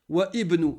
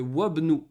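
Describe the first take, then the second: First: The 'i' of 'ibnu' is said as a separate syllable. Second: The 'i' drops out, giving 'wabnu'. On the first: The speaker calls it wrong. "est-ce que tu peux dire wa ibnu? Non" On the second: The speaker calls it right. "Tu fais la liaison, tu fais wabnu"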